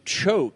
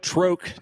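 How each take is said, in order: First: The word begins with a 'ch' sound. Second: The word begins with a 'tr' sound. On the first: The speaker calls it right. "So we'll say choke" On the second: The speaker calls it wrong. "troke to choke"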